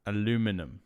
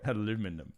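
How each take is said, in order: First: It is said with an American pronunciation. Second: It is said with an American pronunciation.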